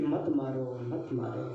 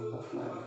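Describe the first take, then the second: First: Softly pleading, fading lower and quieter. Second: The last मत मारो barely whispered, breath only; whispered plea. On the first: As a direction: plead gently, voice sinking, a touch of sorrow. Draupadi pleads to spare him. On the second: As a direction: let मत मारो die away into a whisper. Draupadi's plea fades to whisper. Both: Acted.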